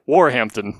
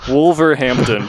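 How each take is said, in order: First: It is said in a British accent. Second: It is said in an American accent.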